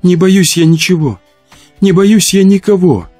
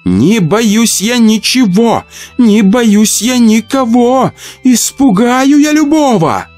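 First: High, mournful rhyme; tearful moan. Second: Chanted, slow, high singsong rhyme; nervous female chant.

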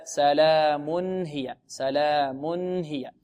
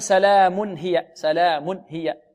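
First: سلام هي with a still, clean nun; clear nun. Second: سلام هي with the nun of the tanwin moved; moved tanwin, wrong. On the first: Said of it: "بل هكذا". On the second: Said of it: "ولا نقول". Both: Shown as a demonstration.

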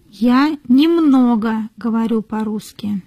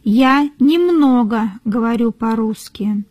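No difference in how they are said.

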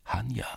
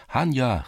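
First: A soft, rising, hushed first call of her name. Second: Now call her name out properly. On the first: Cossack calling softly up to the sleeping girl, rising. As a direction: call her name softly, testing whether she's awake. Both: A narrator's reading. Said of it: "rief er".

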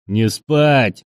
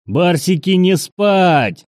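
First: Understated roar, a little raised. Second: High, loud yell to rouse the troops. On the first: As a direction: bellow it with some restraint. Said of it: "заревел цыган". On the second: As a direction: bellow a wake-up order, pitched high. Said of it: "заорал Прохор". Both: A narrator's reading.

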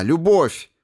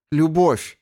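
First: High and loud, lifting the head; exultant cry. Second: High ringing cry of joy; exultant cry. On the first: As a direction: cry it out again with conviction. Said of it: "вдруг вскинула голову". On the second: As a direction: fling the word out. Gelera's exultant answer. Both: Acted.

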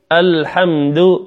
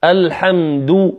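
First: "الحمد" slowly, ending on slack, muted "du"; unrounded final damma. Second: "الحمد" slowly, ending on full "duu"; rounded final damma. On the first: Teacher shows the weaker take, unrounded "du" in "الحمد". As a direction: keep lips back on the end of "الحمد". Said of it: "والأخرى لم أخرج الشفتين". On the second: Teacher has students hear the difference, rounded "du" in "الحمد". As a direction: round the lips on the last vowel of "الحمد". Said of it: "الحمد بإخراج الشفتين". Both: Shown as a demonstration.

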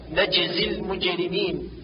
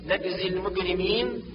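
First: نجزي المجرمين with j as in jam; standard jeem. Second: نجزي المجرمين with g for ج; Egyptian hard g. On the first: Teacher corrects, نجزي المجرمين with proper j. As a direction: say najzi l-mujrimin for نجزي المجرمين. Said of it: "والصواب". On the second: Teacher mimics Egyptian colloquial, نجزي المجرمين with hard g. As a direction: say nagzi l-mugrimin for نجزي المجرمين. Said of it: "كاللهجة العامية المصرية". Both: Shown as a demonstration.

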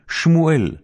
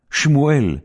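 The two takes are said the same way.

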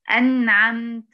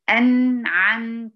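First: Said in the usual way. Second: "أنعمت" drawn out, split after the nun; wrongful gap. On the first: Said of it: "المفروض الكلمة تنطق مباشرة". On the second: Shown as a demonstration. Teacher showing a common mistake, "أنعمت" with a gap after ن. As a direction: break "أنعمت" between the ن and the ع. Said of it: "تعمل فاصل بين النون وبين العين".

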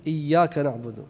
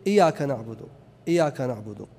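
First: "إياك" with the ي doubled and held, iyyāka; proper shadda. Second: "إياك" with a single light ي, iyaka not iyyāka; dropped shadda. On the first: Teacher giving students the correct recitation: "إياك" with a doubled ي. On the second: Teacher showing students the wrong recitation: "إياك" with an undoubled ي. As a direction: say "إياك" lightly without doubling the ي. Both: Shown as a demonstration. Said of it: "مثال التشديدة".

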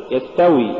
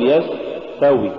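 First: يستوي with a brief s; moderately flowing s in يستوي; balanced sin. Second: يستوي with a long hissing s; yasss-tawi, exaggerated s in يستوي; overdone softness. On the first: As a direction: say يستوي without dragging the s. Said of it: "قل". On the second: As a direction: drag out the s in يستوي. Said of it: "ولا تقل". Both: Shown as a demonstration.

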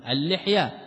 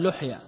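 First: اللحية said "al-lihya", with a short i after the l; kasra on the lam. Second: لحية said "luhya", with a short u after the l; damma on the lam. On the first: Teacher showing students the only correct singular, with kasra. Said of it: "في المفرد بكسر اللام لا غير". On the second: Teacher showing the singular one must not say, with damma. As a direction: say لحية with u in the first syllable. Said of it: "ولا يقال". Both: Shown as a demonstration.

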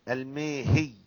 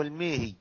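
First: الميهي with light ya; الميهي said with the ya softened. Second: الميهي with shadda on ya; الميهي said with the ya doubled. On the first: Teacher explains to students the light الميهي. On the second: Teacher explains to students the doubled الميهي. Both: Shown as a demonstration. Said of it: "تخففها أو تشددها".

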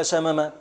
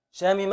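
First: شمم said "shamama", a after the first m; middle vowel a. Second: شامم said "shamima", i after the first m; middle vowel i. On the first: Teacher offering two correct past forms, شمم with middle a. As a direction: keep every vowel of شمم an a: sha-ma-ma. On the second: Teacher offering two correct past forms, شامم with middle i. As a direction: put a short i in شامم: sha-mi-ma. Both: Shown as a demonstration. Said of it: "كلاهما صحيح".

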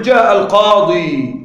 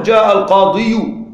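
First: القاضي slowly, ending on a long ī without damma; no final vowel mark. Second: القاضي with the unwanted -u sounded, al-qāḍiyu; pronounced damma. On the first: Teacher giving the easy form, القاضي ending simply in long ī. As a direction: end القاضي on a smooth held "ḍī". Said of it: "بدون حركات في النطق". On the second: Teacher warning what not to say, القاضي as al-qāḍiyu. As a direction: tack a clear "yu" onto القاضي. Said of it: "لا تقل". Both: Shown as a demonstration.

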